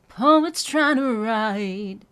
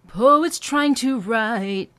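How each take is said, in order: First: Slow sung, write falling on two notes; sung, drop write over two notes. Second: Slow sung trying to write, each word separate, clumsy. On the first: Sung, coach showing the smoother version. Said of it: "Two notes on the word write coming down". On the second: Sung, coach showing clumsy version to avoid. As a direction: sing trying to fully separated. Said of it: "That just sounds a little clumsy". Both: Shown as a demonstration.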